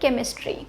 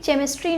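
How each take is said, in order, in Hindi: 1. शब्द की शुरुआत 'k' ध्वनि से होती है। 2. शब्द की शुरुआत 'ch' ध्वनि से होती है। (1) "ये होता है केमिस्ट्री" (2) "ये केमिस्ट्री नहीं होता"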